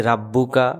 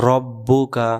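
First: রাব্বুকা with a long "raa"; common mistake. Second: রব্বুকা with a short "ro"; correct pronunciation. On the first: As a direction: open the first vowel: রাব্বুকা. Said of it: "আমরা অনেকে বলি রাব্বুকা". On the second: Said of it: "এখানে হবে রব্বুকা". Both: Shown as a demonstration.

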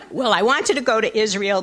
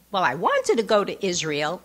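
First: Said in the usual way. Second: Put-on Jewish accent. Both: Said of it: "I'm making him sound like he has a Jewish accent".

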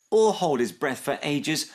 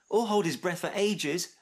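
First: Higher, pressing repeat; crying out. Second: High, light interjection; helpful addition. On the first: Snip repeating Max's point to mum, crying out. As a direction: echo it insistently, more forceful. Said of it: "cried Snip". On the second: Max adding to his friend's list, helpful chipping in. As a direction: chip in at normal volume. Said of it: "added Max". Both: A narrator's reading.

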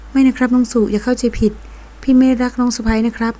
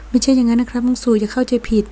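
First: Serious. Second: Hurried. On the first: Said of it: "ศิลากรพูดด้วยน้ำเสียงจริงจัง". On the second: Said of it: "รีบพูดอย่างรวดเร็ว". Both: A narrator's reading.

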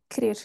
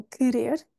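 First: Querer said as krer, first vowel dropped; common pronunciation. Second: Querer with a clear first e; acceptable pronunciation. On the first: Teacher warning students they will hear krer. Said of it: "é que vão ouvir". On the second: Teacher allowing students the full querer. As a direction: say querer with both syllables in full. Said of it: "podemos contar como certo". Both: Shown as a demonstration.

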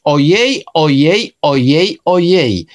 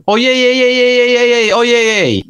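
First: Each OJEJ set apart, lifted at the end, last one falling; separate, evenly spaced OJEJ, like a list of little sighs; specific way of speaking. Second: Every OJEJ fused into one high, unbroken wail; run together as one word. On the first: Acted. Imagined character who talks in a specific way, each OJEJ said separately. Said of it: "w specyficzny sposób mówić". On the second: Shown as a demonstration. Showing it written as one word, a continuous high moan of OJEJ. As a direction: OJEJ chained without gaps on a high held pitch, dropping at the end. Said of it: "zapisać to razem".

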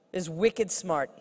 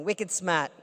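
First: Said in the usual way. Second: Wicked smart in a light Boston accent, smart said "smaht" with no r; a playful hint of Boston accent. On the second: Shown as a demonstration. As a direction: drop the r in smart, Boston style. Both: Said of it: "I can say that with a Boston accent".

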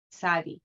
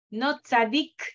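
First: "tzadi" with no final k; correct tzadi. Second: "tzadik" with a final k, the form to avoid; the incorrect name with final k; wrong tzadik. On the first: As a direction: end the name on the i. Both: Shown as a demonstration. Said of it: "No tzadik, sino tzadi".

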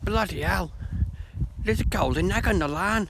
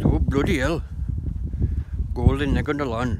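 First: High-pitched mock British exclamation; comic British accent, pitched well up; British guy accent. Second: Put-on joke-telling Asian accent, a bit louder; a hint of an Asian accent; Asian guy accent. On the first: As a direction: put on a higher British voice, astonished. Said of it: "And the British goes". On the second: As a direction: lightly imitate an Asian man's accent, astonished. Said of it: "Asian guy".

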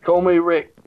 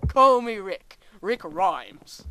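First: Mock British accent. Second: Loud, badly faked British accent; failed British accent. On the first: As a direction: put on a bit of British. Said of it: "Oh, he turns British now". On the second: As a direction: belt out a hammed-up attempt at British. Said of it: "That didn't sound British at all".

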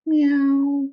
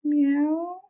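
First: High, loud cat meow; cat meowing up at Flugel. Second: Gentle rising meow, high like a cat; mild, tender cat meow; soft meow. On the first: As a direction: call it out like a contented cat. Cat meows in the sun. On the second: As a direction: coax it out like a fond cat. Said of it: "said the cat softly". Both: Acted.

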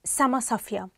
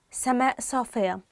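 First: سما صافية, Egyptian, سما ending open with no hamza; Egyptian dialect. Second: سماء صافية with the final hamza, formal Standard Arabic. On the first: Teacher gives learners the dialect form. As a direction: say سما صافية the Cairo colloquial way. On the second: Teacher gives learners the Standard form. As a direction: say سماء صافية the Standard way, glottal stop at the end of سماء. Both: Shown as a demonstration. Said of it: "Or in the Egyptian dialect".

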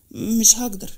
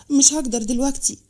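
First: Subdued, regretful refusal; a touch of sorrow in refusing; sad. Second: Regretful refusal, a little more pressed; mildly pained, insisting on the refusal; sad insistence. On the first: Amir refusing Maram's request, mildly sad. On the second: Amir telling Maram not now, sad insistence. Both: A narrator's reading. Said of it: "أمير بصلها بحزن وقال".

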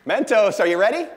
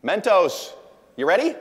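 First: Even louder, higher showman call; louder hype call. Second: Much louder, higher hype call. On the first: Speaker revving up the audience for the Mentos stunt, bigger hype shout. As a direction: push the crowd harder on the repeat. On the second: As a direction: fire up the crowd like a showman. Calling out to the audience. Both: Real, not acted.

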